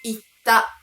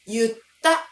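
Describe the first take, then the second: First: The word begins with an 'i' sound. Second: The word begins with a 'yu' sound. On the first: The speaker calls it right. "正解は" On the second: The speaker calls it wrong. "言うが言うになるからといって…とは読んではいけないんです"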